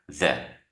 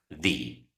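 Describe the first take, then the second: First: It is the pronunciation used before consonant sounds. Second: It is the pronunciation used before vowel sounds. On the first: "Si inicia con una consonante, ... debes pronunciarla the" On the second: "si la segunda palabra inicia con una vocal, entonces debes pronunciarla the"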